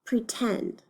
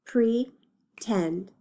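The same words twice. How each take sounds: First: Said in the usual way. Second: Broken into syllables. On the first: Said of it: "let's read the word". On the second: Shown as a demonstration. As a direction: PRETEND split in two, pre, then tend. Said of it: "decide how many syllables it has".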